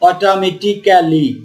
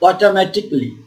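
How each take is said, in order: First: The ending sounds like 'kally' with a vowel. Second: The ending sounds like 'klee' with no vowel. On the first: The speaker calls it wrong. "এভাবে বলছি না যে অটোমেটিক্যালি" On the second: The speaker calls it right. "তাহলে এটার কি উচ্চারণ হচ্ছে"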